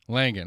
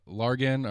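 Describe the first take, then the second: First: The name is said without any R sound. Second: The name is said with an added R sound. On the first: The speaker calls it right. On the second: The speaker calls it wrong.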